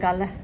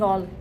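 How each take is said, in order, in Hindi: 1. स्वर खुला है, और अंत में एक अतिरिक्त अक्षर है। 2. स्वर गोल और पीछे का है, जैसे call में। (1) "श्रीलंकन्स बोलते हैं गाला" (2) "गैल नहीं गॉल"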